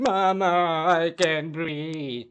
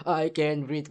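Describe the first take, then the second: First: Slow, strained mock gasping plea; a hammed-up, breathless plea for mother; mock dying plea. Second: Said in the usual way. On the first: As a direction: drag it out like a man choking. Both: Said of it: "That's why he was saying".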